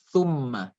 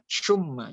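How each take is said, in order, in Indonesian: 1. Dimulai dengan bunyi th, lidah menempel pada gigi. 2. Dimulai dengan bunyi sh. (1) "disebutkannya di ujung lidah dan di pangkal gigi" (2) "jangan baca syumma"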